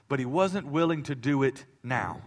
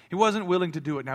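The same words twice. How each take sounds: First: Said in the usual way. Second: Wasnt pushed louder and higher, quicker; faster repeat. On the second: Acted. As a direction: drive home wasnt in the repeat.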